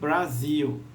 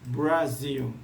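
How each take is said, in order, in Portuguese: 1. O R vai direto para a vogal. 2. Um leve som de 'oo' segue o R. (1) "Não é" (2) "um som levemente do U"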